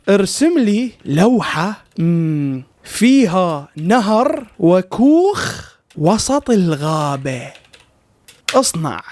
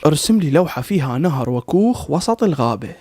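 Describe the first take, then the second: First: Slow, word by word as if typing; dragged out, deliberate typing voice; slow dictation. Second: Said in the usual way. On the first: Shown as a demonstration. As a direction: spell the prompt out slowly to the machine. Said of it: "راح أكتب له". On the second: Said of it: "نصعبها عليه أكثر".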